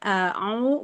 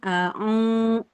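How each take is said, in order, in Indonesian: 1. Vokalnya dipanjangkan di mulut, tidak sengau. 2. Vokalnya dipanjangkan lewat hidung, sengau. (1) "tapi di rongga mulut" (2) "bukan di hidung ya"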